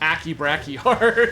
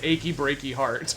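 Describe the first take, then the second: First: It is said with hard k sounds throughout. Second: It is said like the familiar song title. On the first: "if you're pronouncing it properly" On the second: "his quest name in I think it was four is Achy Breaky Heart"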